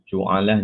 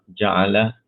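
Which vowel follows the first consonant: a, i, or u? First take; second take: u; a. First: The first vowel is a u sound. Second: The first vowel is an a sound.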